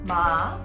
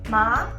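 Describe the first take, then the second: First: It is said with the third tone. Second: It is said with the second, rising tone. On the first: It means horse. "if you say it with tone number three" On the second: It means hemp plant. "Tone number two, like it goes up slightly"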